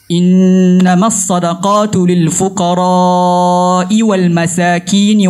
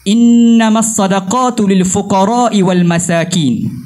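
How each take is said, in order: First: The vowel in fuqara is drawn out long. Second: The vowel in fuqara is kept short. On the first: The speaker calls it right. "dengan membaca panjang pada al-fuqara'" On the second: The speaker calls it wrong. "tidak memanjangkan pada kalimah al-fuqara'"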